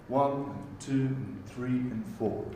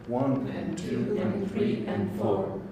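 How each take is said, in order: Both takes have the same delivery.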